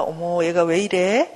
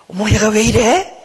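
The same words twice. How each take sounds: First: Slow, mild, curious concern; good-mother wondering. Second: Drawn-out, louder mock scolding; irritated scolding. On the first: Acted. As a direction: look at it gently, drawing the question out. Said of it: "이제는 좋은 엄마처럼 나를 보는 거예요". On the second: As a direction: scold as a fed-up mother would, dragging it out. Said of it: "막 짜증내고 내 자신을 향해서 꾸짖는 마음".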